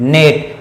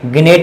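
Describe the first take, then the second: First: The word starts with an n sound. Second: The word starts with a g sound. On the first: The speaker calls it right. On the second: The speaker calls it wrong.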